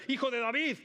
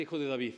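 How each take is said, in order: First: Higher, louder desperate cry of "Hijo de David"; retold shout. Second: Said in the usual way. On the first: Blind men crying out to Jesus, loud desperate shout. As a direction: call out "Hijo de David" as if begging across a crowd. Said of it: "y le gritan". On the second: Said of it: "Me encanta".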